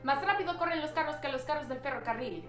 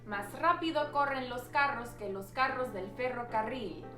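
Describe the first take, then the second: First: It is said very fast. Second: It is said at a normal, unhurried speed.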